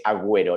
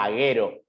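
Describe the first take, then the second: First: "Agüero" said as a-GWE-ro; "Agüero" with a clear GW before the E; sounded U. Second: "Agüero" said as a-GE-ro, hard G straight into E; "Agüero" with no W glide after the G; silent U. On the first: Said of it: "Pero como está puesto, es". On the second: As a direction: drop the U sound from "Agüero". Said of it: "si no, no se pronuncia". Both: Shown as a demonstration.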